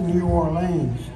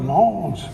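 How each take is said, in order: First: The name is said as two separate words. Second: The name is squeezed into one short word. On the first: This is how outsiders say it. "They don't say New Orleans down there" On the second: This is how locals say it. "It's like one word"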